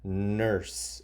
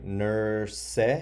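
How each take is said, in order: First: The word ends without any extra vowel sound. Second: An extra vowel sound is voiced at the end. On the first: The speaker calls it right. "maybe this E shouldn't be there, and you just say nurse" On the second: The speaker calls it wrong. "If I try to sound out the E, it doesn't sound right"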